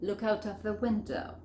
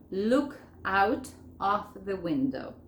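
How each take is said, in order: First: "Look out of the window" run together without gaps; linked words. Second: "Look out of the window" slowly, each word separate; slow, unlinked words with gaps between. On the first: Teacher showing learners how to unite it all, linked. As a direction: join "Look out of" like one word. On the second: Teacher showing learners the phrase before joining, word by word. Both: Shown as a demonstration. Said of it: "Vamos a unirlo todo esto".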